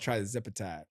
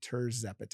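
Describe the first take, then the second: First: The word begins with the sound "try". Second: The word begins with the sound "teer". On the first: The speaker calls it wrong. "People call it trizepatide all the time" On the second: The speaker calls it right. "T I R Z"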